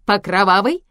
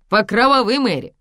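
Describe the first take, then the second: First: "по кровавой" as a loud rising question; "по кровавой" asked with rising pitch; offering question. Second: "кровавой" louder, then "Мэри" dropping; "кровавой" stressed as a clarification, falling at the end; emphatic repeat. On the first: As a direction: lift the end of "кровавой" in invitation. Offers a drink, then repeats. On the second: Repeats it to explain. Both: Acted.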